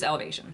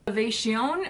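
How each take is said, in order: First: The name is pronounced in a plain way. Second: The name is pronounced in a fancy way. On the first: "Maybe it's just Elevation" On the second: "maybe I'm just being too fancy"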